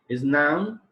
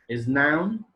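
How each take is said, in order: The two takes are said the same way.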